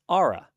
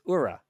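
First: The name is said like 'aura'. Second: The name is not said like 'aura'. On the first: The speaker calls it right. "It's Aura, like A-U-R-A" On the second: The speaker calls it wrong. "was Aura. It's not"

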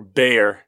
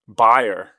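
First: The name sounds like 'bay-er', two syllables. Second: The name sounds like the word 'buyer'. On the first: This is how it is said in the United States. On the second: This is how it is said in Germany.

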